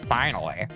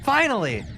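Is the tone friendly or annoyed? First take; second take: annoyed; friendly. First: It is said in an annoyed, impatient tone. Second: It is said in a friendly, happy tone.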